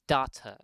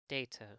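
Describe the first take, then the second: First: The name is said in a British accent. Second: The name is said in an American accent. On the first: The speaker calls it wrong. "Or Data in Brit" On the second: The speaker calls it right. "But he's American, so his name is Data"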